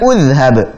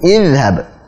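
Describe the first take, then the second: First: The word begins with a u vowel. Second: The word begins with an i vowel. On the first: The speaker calls it wrong. "bukan udhhab" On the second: The speaker calls it right. "Jadi izhab, bukan udhhab"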